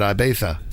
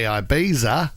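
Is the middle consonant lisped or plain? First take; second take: lisped; plain. First: The middle consonant is a lisped th sound. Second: The middle consonant is a plain z sound.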